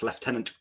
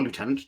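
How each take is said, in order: First: Lieutenant said as "lef-TEN-ant"; British pronunciation. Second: Lieutenant said as "loo-TEN-ant"; American pronunciation. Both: Shown as a demonstration. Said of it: "depending on where you are in the world".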